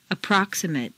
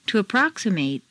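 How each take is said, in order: First: "Approximate" ending in weak "-mut"; reduced ending. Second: "approximate" ending in long "-MATE"; full A ending. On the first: Teacher models adjective "Approximate" with reduced final vowel. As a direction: shrink the last vowel of "Approximate". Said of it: "in an adjective is completely reduced". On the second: Teacher models verb "approximate" with full final A. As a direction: open out the last A of "approximate". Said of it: "it's a full A sound". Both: Shown as a demonstration.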